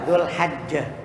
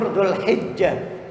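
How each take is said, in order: First: The vowel after the h is 'a'. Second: The vowel after the h is 'i'. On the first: "Boleh juga dibaca" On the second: "yang lebih sahih yang masyhur"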